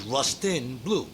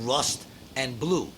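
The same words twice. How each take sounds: First: "Rust and Blue" said as "Rustin Blue"; misheard band name. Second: "Rust and Blue" as separate words; original band name. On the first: Showing what he misheard as a kid, "Rustin Blue". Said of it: "I always thought it was". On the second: Brother's old band named plainly, "Rust and Blue" in separate words. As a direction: say "Rust", then "and Blue", keeping the words apart. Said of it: "he was in a band called". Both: Shown as a demonstration.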